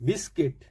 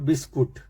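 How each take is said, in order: First: The second syllable has an 'i' vowel. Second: The second syllable has a 'u' vowel. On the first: The speaker calls it right. "यू नहीं बोलना है, आई बोलना है" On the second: The speaker calls it wrong. "बिस्कुट rough word है, नहीं बोलना है"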